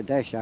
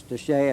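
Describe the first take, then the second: First: Desha ending in an "uh" or "ah" sound; alternate pronunciation. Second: Deshay ending in an "ay" sound; Deshay, rhyming its end with "day"; alternate pronunciation. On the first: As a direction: say Desha without the final "ay". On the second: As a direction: say Deshay with a final "ay". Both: Shown as a demonstration. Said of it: "pronounce it two different ways".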